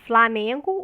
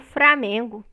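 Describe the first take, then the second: First: The cluster is said with an L sound. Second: The cluster is said with an R sound. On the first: "com L ou R no encontro consonantal" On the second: "Framengo é estigmatizado"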